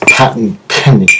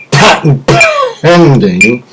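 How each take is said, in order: First: Said in the usual way. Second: "patent pending" stretched slow in a put-on voice; slow, high, drawn-out patent pending. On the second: Shown as a demonstration. Joking about his own invention, slow mock official voice. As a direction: draw out "pending" in a comic announcer tone.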